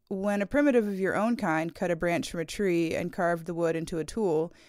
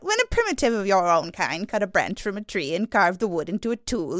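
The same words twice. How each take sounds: First: It is read in the speaker's normal voice. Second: It is read in a put-on character voice.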